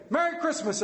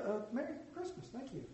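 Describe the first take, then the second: First: High, bright Merry Christmas; spring a cheerful greeting on strangers; cheery greeting. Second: Flustered reply. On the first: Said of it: "And I say". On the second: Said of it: "Oh, yeah". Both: Retold or imitated.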